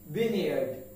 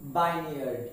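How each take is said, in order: First: The first syllable sounds like 'vin'. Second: The first syllable sounds like 'vine'. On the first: The speaker calls it right. "E is totally silent" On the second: The speaker calls it wrong.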